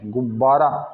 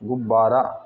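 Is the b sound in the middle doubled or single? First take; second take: doubled; doubled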